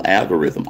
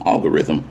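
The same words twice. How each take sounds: First: "algorithm" opening on the A of "pal"; algorithm with flat A. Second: "algorithm" opening on a broad "ahl". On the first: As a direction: say "algorithm" starting like "Al". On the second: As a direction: say "algorithm" starting with AH, like "ahl-go-rhythm". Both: Real, not acted. Self-corrects the word on repeat.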